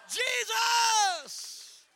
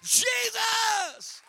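First: High, loud, drawn-out cry; shouted Jesus again. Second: High, loud call of the name; shouted Jesus. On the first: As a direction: call it out with them. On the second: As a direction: shout it out for them to repeat. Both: Shown as a demonstration. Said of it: "Come on, somebody say that".

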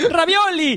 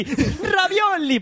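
First: Hammed-up Italian. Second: Very slow, high, laughing fake Italian; drawn-out Italian. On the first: Host hamming up an Italian food cry, high and theatrical. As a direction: shout it like a cartoon Italian chef. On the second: Host repeating the food cry in a slow, laughing Italian drawl. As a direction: stretch it out while laughing. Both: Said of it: "con acento italiano y haciendo coña".

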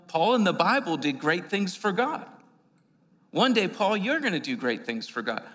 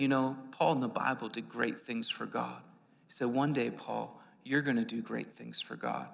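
First: Louder, preached restatement; louder re-quote. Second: Soft, low, gentle; quiet retelling. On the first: Preacher repeating the stranger's word to the congregation, louder. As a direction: proclaim it to the church. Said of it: "It was like". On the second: Stranger outside the bar gently encouraging young Paul, quietly. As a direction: speak it like a quiet blessing. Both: Retold or imitated.

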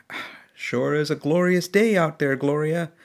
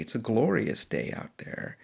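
First: A cheerful old trucker greeting his wife, only lightly voiced; husband's voice. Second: Said in the usual way. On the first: Old husband in the passenger seat greeting Gloria, mild cheer. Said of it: "you hear a voice saying".

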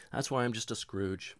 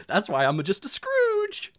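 First: Said in the usual way. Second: Louder, slowed, laughing through it; laughing admission, louder. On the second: Real, not acted. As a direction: laugh the confession out.

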